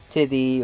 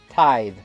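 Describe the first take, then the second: First: The word ends in an 'ee' sound. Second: The word ends in a 'th' sound. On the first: The speaker calls it wrong. "I've heard some people call it tithy" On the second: The speaker calls it right. "that's how you pronounce it"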